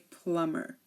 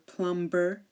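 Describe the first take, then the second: First: The B sound is silent. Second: The B sound is clearly pronounced. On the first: The speaker calls it right. "we say plumber" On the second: The speaker calls it wrong. "We do not say climber or plumber"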